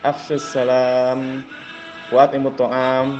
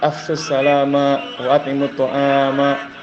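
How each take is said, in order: First: The final words end on a bare consonant. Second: The final words end with an added vowel. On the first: The speaker calls it right. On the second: The speaker calls it wrong.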